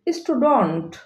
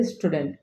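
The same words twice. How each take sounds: First: "স্টুডেন্ট" as stu-dont, open vowel; correct pronunciation. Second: "স্টুডেন্ট" with e, stu-dent; low, soft স্টুডেন্ট ending in -dent; common pronunciation. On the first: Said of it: "correct pronunciation হবে". ("স্টুডেন্ট" শুদ্ধ স্টুডন্ট উচ্চারণ) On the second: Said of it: "আমরা সবাই উচ্চারণ করে থাকি". ("স্টুডেন্ট" প্রচলিত স্টুডেন্ট উচ্চারণ) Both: Shown as a demonstration.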